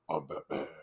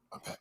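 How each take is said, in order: First: It is said in a deep Batman voice. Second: It is said in a higher, normal voice.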